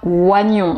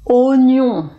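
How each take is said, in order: First: The first vowel sounds like 'wa'. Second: The first vowel sounds like 'o'. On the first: The speaker calls it wrong. "et pas oignon, O et I, ça fait oie" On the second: The speaker calls it right. "la bonne prononciation, on prononce O"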